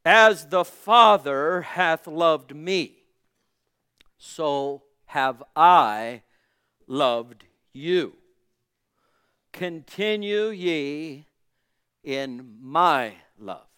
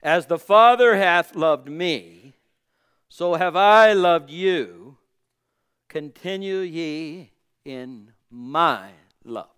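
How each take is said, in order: First: Very slow, each phrase drawn out with long pauses; solemn slow reading of scripture. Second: Louder, slow, stressed proclamation of the verse; emphatic slow declaration; louder second reading. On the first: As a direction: lay the verse down word by word, slowly. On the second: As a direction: say it again with more force so it lands. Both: Shown as a demonstration. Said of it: "We'll try it one more time".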